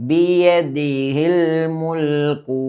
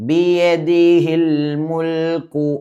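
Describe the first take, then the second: Both takes have the same delivery.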